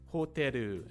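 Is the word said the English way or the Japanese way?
Japanese. It has Japanese sounds with an added final vowel. "different ways of saying these words in Japanese"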